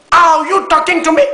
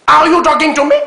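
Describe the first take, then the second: First: Put-on the De Niro line again, in a Martinique accent, high and loud. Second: Put-on loud, high De Niro line in a Martinique French accent. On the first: Host proving he can imitate De Niro, Martinique accent, high and loud. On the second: Host mocking a guest's De Niro impression, in a loud, high Martinique accent. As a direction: play Robert De Niro dubbed with a Martinique French accent, much higher and louder. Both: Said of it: "C'est la voix martiniquaise de De Niro".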